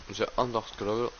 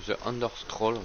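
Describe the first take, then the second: No difference in how they are said.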